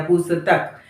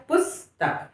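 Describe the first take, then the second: First: पुस्तक with स sounded as a full syllable "sa"; full vowel after स. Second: Said in the usual way. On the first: Shown as a demonstration. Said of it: "आपने स को पूरा कर दिया". (पुस्तक में स को पूरा बोलते हुए) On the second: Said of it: "पढ़ना क्या है?".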